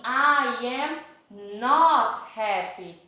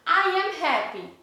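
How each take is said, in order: First: I am not happy, slow, with not leaned on; teacher slowing down to land not; stress on not. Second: Said in the usual way. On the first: Shown as a demonstration. Teacher to pupils, I am not happy slow with not stressed. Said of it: "eu falar assim". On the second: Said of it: "ao invés de falar I am happy".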